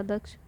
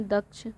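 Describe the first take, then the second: First: दक्ष with the full cluster क्ष; full क्ष sound. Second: Said in the usual way. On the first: Shown as a demonstration. Teacher corrects the word to a full क्ष cluster. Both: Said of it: "ये पूरा छह रहेगा".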